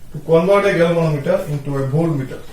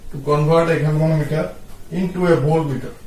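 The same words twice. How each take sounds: Both takes have the same delivery.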